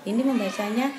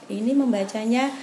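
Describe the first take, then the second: The two takes are said the same way.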